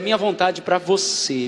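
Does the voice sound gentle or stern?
gentle. It is said in a soft, loving tone. The will is offered with love. The speaker calls it right. "que ele é amor"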